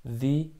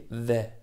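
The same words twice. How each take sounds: First: "The" with a long ee, like "thee". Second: "the" with a short e, like "theh"; THE with short vowel. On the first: Teacher shows two readings, "The" said as "thee". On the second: Teacher shows two readings, "the" with short vowel. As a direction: say "the" short, without the ee. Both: Shown as a demonstration. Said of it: "ду тарзи талаффуз дорад".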